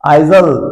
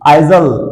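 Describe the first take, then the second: The two takes are said the same way.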